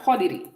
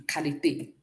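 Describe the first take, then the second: First: "quality" said as in English, kw start and ee ending; English pronunciation. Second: "Qualité" softly, with a k start and é ending; French pronunciation. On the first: Teacher compares English with French, English pronunciation. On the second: Teacher shows what it is in French, French pronunciation. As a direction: say "Qualité" in French, lower and softer. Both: Shown as a demonstration. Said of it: "Look at what it is in French".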